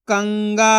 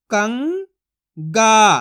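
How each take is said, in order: First: Said in the usual way. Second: कंगा split as "कं", long pause, "गा"; syllable by syllable. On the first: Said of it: "तो मिलके बन जाएगा". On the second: Shown as a demonstration. Teacher sounds out कंगा for learners, syllable by syllable. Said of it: "एक एक अक्षर का उच्चारण करके".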